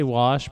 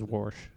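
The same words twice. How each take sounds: First: The word is said without an r sound. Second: The word is said with an added r sound. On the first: The speaker calls it right. "I say wash" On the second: The speaker calls it wrong. "a lot of my family says wash. I'm like, there's no R in it"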